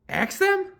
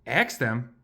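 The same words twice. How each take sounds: First: Much higher, rising astonished question; high squeaky disbelief. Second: Said in the usual way. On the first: Acted. Elephant amazed at Piggy's idea, high squeaky question.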